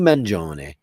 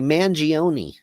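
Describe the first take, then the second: First: The surname is pronounced the Italian way. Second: The surname is pronounced the American way.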